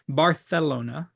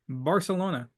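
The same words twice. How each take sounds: First: The middle consonant is a th sound. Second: The middle consonant is an s sound. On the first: The speaker calls it right. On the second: The speaker calls it wrong.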